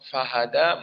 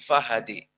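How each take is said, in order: First: The final vowel is an open 'a'. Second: The final vowel leans strongly toward 'i'. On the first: This is the majority reading. "Di qiraah jumhur maka hada alif" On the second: This is the reading of one particular reciter. "menjadi fahadi"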